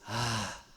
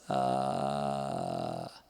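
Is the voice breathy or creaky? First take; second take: breathy; creaky. First: The vowel is said with a breathy murmur. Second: The vowel is said with a creaky, gravelly voice. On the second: "o laringalizado... parece assim de filme de terror"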